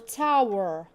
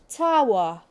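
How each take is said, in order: First: It is said in an American accent. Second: It is said in a non-American accent.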